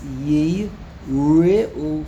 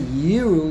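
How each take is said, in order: First: It is said as three syllables, yi-re-u. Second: It is said as two syllables, yi-ru. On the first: It means to fear. The speaker calls it right. "When there's a shvonot, then it's yi re'u" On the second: It means to see. The speaker calls it wrong. "if you would say yiru, that would mean to see"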